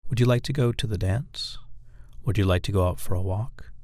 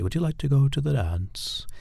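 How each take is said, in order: First: Controlled question, lifting the end on "dance" and "walk"; authoritative question inflection. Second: Higher-pitched regal invitation to the dance; royalty. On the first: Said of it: "an authoritarian sound to it". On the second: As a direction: ask it as if you were royalty. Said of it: "it almost sounds like royalty". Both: Shown as a demonstration.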